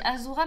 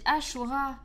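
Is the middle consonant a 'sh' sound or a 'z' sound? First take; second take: z; sh. First: The middle consonant is a 'z' sound. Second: The middle consonant is a 'sh' sound. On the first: The speaker calls it wrong. "à chaque fois on dit Azura" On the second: The speaker calls it right. "mais ça se dit Ashura"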